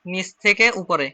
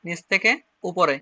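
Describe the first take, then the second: First: Drawn-out নিচ থেকে উপরে as the pen moves; slow demo. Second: Said in the usual way. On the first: Shown as a demonstration. Teacher writing on the board for students, slowly. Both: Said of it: "এটা দেখেন, আমি এখানে লিখে দিচ্ছি".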